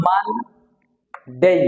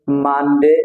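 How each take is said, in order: First: মানডে very slow, long "maann", pause, "dey"; stretched syllables. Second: মানডে as one word with short "de"; common Bangla pronunciation. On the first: Teacher correcting how we say it, stretched syllables. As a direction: hold the n of মানডে before a separate "dey". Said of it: "এটা হবে". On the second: Teacher listing days as we usually say them, common pronunciation. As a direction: say মানডে casually, unsplit. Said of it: "আমরা সাধারণত এভাবেই বলে থাকি". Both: Shown as a demonstration.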